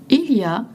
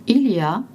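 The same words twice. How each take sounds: The two takes are said the same way.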